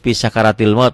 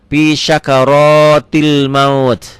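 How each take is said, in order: First: The r is light with an a vowel. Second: The r is heavy with an o vowel. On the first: The speaker calls it wrong. "kadang-kadang kita saya juga fi syakaratil maut padahal" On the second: The speaker calls it right. "ra-nya jadi go"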